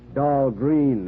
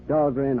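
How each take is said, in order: First: The second syllable has a long 'ee' vowel. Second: The second syllable has a short 'e' vowel. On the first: The speaker calls it wrong. "they mispronounce it down there" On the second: The speaker calls it right. "They pronounced it right at Annapolis"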